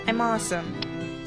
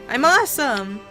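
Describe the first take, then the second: First: It is said quietly and hesitantly. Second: It is shouted loudly.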